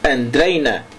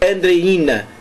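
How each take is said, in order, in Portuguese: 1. O acento tónico cai numa sílaba deslocada. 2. O acento tónico cai na sílaba esperada. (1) "é um erro de acentuação" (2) "a pronunciação correta é Andreína"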